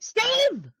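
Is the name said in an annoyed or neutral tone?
annoyed. The name is said in an upset, annoyed tone. The two characters have just had a fight. The speaker calls it right. "because you and Steve just had a fight? ... you're supposed to be like"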